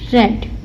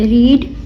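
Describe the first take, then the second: First: The vowel is short, like 'red'. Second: The vowel is long, like 'reed'. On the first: It is the past form of the verb. "Second और third form में हम इसकी pronunciation रेड कर देंगे" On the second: It is the present form of the verb. "मैंने first form में रीड पढ़ा"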